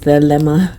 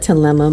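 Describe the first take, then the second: First: The word starts with a th sound. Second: The word starts with a plain t sound. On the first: "Maybe it's pronounced Thelema" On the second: "I call it Telema. ... I pronounce it with a Spanish T"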